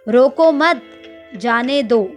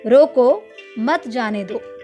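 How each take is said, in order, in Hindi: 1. 'mat' के बाद एक छोटा सा विराम है। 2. 'roko' के बाद एक छोटा सा विराम है। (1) "दूसरे वाक्य में हम मत शब्द के बाद में विराम दे रहे हैं" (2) "पहले वाक्य में रोको के बाद हल्का सा विराम दे रहे हैं"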